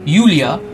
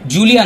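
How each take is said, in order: First: The name begins with a Y sound. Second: The name begins with a J sound. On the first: The speaker calls it right. "উচ্চারণ ঠিক করবে" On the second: The speaker calls it wrong. "জুলিয়া নয়"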